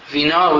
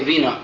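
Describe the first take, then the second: First: The stress is on the last syllable. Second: The stress is on the first syllable. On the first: The speaker calls it right. "we say" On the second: The speaker calls it wrong. "we don't say vino"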